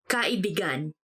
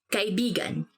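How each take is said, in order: First: The word has a twisted, shifted stress placement. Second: The word has its usual stress placement.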